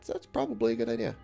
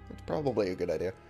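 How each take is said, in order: First: The word probably carries no special emphasis. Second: The word probably is strongly emphasized.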